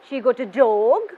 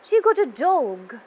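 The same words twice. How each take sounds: First: The voice rises at the end. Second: The voice falls at the end. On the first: "At the end of my sentence, my voice going up" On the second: "towards the end of my sentence, my voice is going down"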